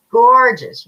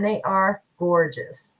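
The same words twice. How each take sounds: First: Gorgeous punched louder and higher, falling at the end; an excited one-word repeat of Gorgeous; emphatic gorgeous. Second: Said in the usual way. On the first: Real, not acted. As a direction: hit Gorgeous hard as an admiring exclamation.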